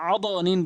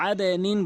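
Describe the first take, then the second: First: আদ নিন said "ado nin"; mistaken qalqalah. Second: আদে নিন with a short "e" echo on the d; correct qalqalah. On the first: Teacher warning learners of the error, "o" in আদ নিন. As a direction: round the bounce of আদ to "o" before নিন. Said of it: "বলতে পারবেন না". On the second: Teacher telling learners what to say, "e" in আদে নিন. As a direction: bounce আদে downward before নিন. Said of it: "আদে নিন বলতে হবে". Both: Shown as a demonstration.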